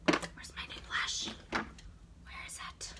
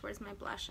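First: Unvoiced, slow searching whisper; whispering to herself. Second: Said in the usual way. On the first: Real, not acted. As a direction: whisper while rummaging.

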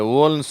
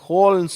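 First: ஓல்ன்னு with no h, starting on a rounded "wo"; wrong w onset. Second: ஹோல்ன்னு starting on a breathed h; correct, with h. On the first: Teacher showing how not to say it, h missing. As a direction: drop the h from ஓல்ன்னு. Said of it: "இதை ஓல்ன்னு சொல்லக்கூடாது". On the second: Teacher showing how it must be said, with h. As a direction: sound the h at the front of ஹோல்ன்னு. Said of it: "இது ஹோல்ன்னு சொல்லணும்". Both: Shown as a demonstration.

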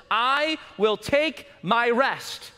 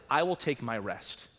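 First: God's declaration. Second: Low, soft and unhurried; hushed God's words. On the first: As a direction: declare it slowly, full voice. Preacher voicing God's calm words. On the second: Preacher repeats God's promise to the flock, low and soft. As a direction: let it settle, quietly. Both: Acted.

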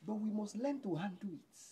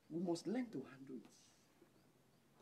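First: Said in the usual way. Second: Half as fast, much softer, drawn out; slow soft repeat. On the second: Shown as a demonstration. Preacher repeating the point softly to the church, slow and hushed.

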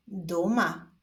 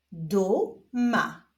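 First: Said in the usual way. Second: Stretched first syllable, pause, then second; drawn-out, divided syllables; syllable reading. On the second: Shown as a demonstration. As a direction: read it slowly as two separate syllables. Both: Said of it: "zapraszam Was do odczytywania sylab".

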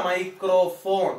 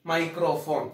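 First: microphone drawn out slowly, each syllable clear; teacher drills the word microphone slowly; slow spelled-out word. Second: Said in the usual way. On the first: Shown as a demonstration. Teacher drilling students on the word, slow and deliberate. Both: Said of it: "microphone എന്ന് തന്നെ പഠിക്കുക".

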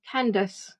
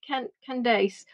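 First: Candace with a weak second syllable, CAN-diss; unsure pronunciation. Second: Candace ending in a long "dace"; Candace with second syllable rhyming with face; unsure pronunciation. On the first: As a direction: try Candace with a short, unstressed ending. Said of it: "help me on that one". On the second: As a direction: stumble on Can-, then slowly say Candace as can-DAYCE. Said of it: "pronounce my name wrong". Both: Real, not acted.

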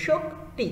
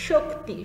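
First: Shakti with the k pressed hard; stressed demo word. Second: Shakti said as shok-ti with a clean sh; clear demo word. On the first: Teacher showing students a stressed Shakti. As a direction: lean on the k in Shakti. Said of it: "চাপ দিয়ে উচ্চারণ করতে হবে". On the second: Teacher demonstrating Shakti for the class. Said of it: "যেভাবে আমরা বলে থাকি স". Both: Shown as a demonstration.

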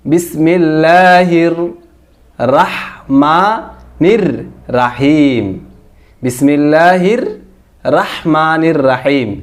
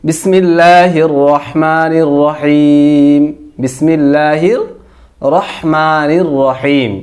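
First: Slow, broken-up "রাহমানির" with open raa; wrong Bangla reading. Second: Slow drawn-out recitation, "রহমানির" with a rounded ro; correct Arabic. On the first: Teacher showing how Bangla spelling misreads the bismillah, mispronounced. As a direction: open "রাহিম" to raa, word by word, drawn out. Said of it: "যদি আমরা বাংলা উচ্চারণ করতে যাই". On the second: Teacher reciting the bismillah as Arabic, correct pronunciation. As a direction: stretch the long vowels, round the r of "রহিম" to ro. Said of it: "এটা আরবি". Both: Shown as a demonstration.

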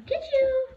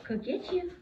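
First: Much higher playful tease. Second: Said in the usual way. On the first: Real, not acted. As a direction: tease the puppy up high. Playing with dog.

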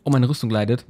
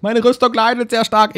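First: Said in the usual way. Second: Much higher and louder outburst; excited exclamation. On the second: Real, not acted. Gamer sees his armour stat drop, exclaiming high and loud.

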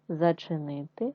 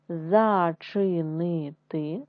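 First: Said in the usual way. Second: Зачинити read slowly, syllable by syllable. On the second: Shown as a demonstration. Teacher reading зачинити to first graders in syllables, slow. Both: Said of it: "читаємо з вами слова".

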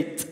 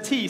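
First: "t" as a crisp tick with no vowel; bare consonant. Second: Said in the usual way. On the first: Shown as a demonstration. Leader swaps word for beatbox sound, vowelless "t". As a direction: make "t" only a percussive tongue click of air. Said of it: "say t". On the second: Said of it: "Instead of T, say t".

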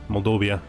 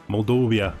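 The two takes are said the same way.

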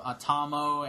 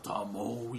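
First: Said in the usual way. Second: Low, soft impression of a giant robot; deep robot voice. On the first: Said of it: "like, a deep voice". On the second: Robot repeats the comic name, in an imitated deep voice. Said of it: "he has, like, a deep voice".

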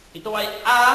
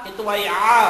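No difference in how they are said.

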